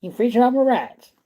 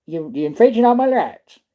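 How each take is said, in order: First: Even higher, indignant mock Texan; put-on Texas accent. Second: Higher, indignant hammed-up Texan; put-on Texas accent. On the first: Repeating the line to chat Moon Rocks in a higher Texan accent. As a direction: push the Texan whine up higher. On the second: Mocking the officers with indignant Texan accent. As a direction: protest your rights like a mock Texan. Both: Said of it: "Sound like you're from Texas".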